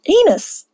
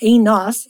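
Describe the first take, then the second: First: "Enos" as EE-nus, weak second vowel; rhymes with penis. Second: "Enos" with a full O, ee-noss; wrong pronunciation. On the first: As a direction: say "Enos" higher, rhyming it with penis. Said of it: "Like penis". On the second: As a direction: say "Enos" as EE-noss, second vowel open. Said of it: "Sorry, it's not Enos". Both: Shown as a demonstration.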